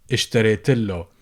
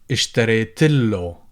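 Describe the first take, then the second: The two takes are said the same way.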